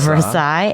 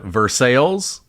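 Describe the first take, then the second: First: It is pronounced the usual way. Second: It is pronounced the local Kentucky way. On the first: "instead of" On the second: "and a Versailles instead"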